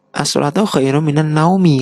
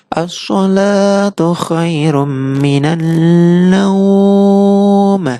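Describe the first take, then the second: First: The last word ends with a short i vowel. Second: The last word ends on a consonant, vowel lengthened. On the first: "naumi pendek" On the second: "Jadi panjang"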